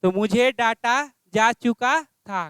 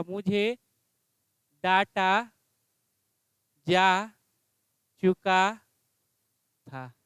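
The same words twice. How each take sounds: First: Said in the usual way. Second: Slow dictation. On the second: Shown as a demonstration. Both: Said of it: "क्या हो जाएगा?".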